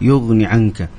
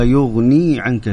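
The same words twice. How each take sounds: First: The vowel after the n is short. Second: The vowel after the n is long. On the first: The speaker calls it wrong. "أنت قلت ما لا يغني عنك" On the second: The speaker calls it right. "الصحيح أنه تجيبها بالياء"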